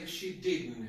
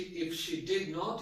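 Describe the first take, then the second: First: The words are joined into one contracted word. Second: The words did and not are said separately. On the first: "you can say" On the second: "instead of saying"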